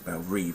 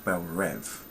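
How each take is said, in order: First: The second word is said like 'reeve'. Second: The second word is said like 'rev'. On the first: This is how the older show said the name. The speaker calls it right. "It should be said as Belle Reve anyway" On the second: This is how the new show says the name. The speaker calls it wrong. "they pronounce it as Belle Rev"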